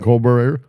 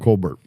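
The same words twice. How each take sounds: First: The name is said the French way. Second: The name is said the English way.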